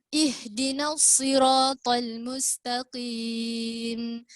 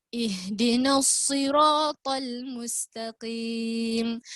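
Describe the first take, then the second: Both takes have the same delivery.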